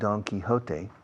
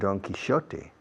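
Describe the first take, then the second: First: Quixote is said in a non-British way. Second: Quixote is said in the British way.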